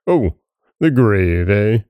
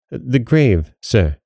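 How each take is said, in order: First: Drawn-out "Oh", then knowing "the grave, eh"; mocking echo. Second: Timid. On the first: Goblin throws back the sexton's answer, mocking. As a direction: toy with the words "the grave". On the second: Sexton answers the goblin, timid "The grave". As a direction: meekly offer "The grave, sir". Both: A narrator's reading.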